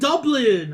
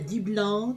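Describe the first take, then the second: First: The word is said with a plain English accent. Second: The word is said with a thick French accent. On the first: "you mean Dublin?" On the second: "she had a very thick French accent"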